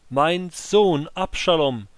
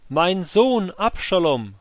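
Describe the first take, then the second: First: Slow, higher and louder anguished cry; weeping lament. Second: Slow, even higher anguished call; weeping lament. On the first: Grieving king crying out for his son, weeping. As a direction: cry out his son's name in grief. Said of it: "er stieg weinend". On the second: King walking up to the gatehouse, calling out in weeping grief. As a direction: let the grief break through again. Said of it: "rief er im Gehen". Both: Acted.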